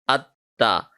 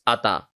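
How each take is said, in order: First: The t sound is held for half a second. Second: The t sound is quick with no hold. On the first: The speaker calls it right. "for half a second, we have stayed on the letter ta" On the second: The speaker calls it wrong. "if we read like this, ata. This is not ata"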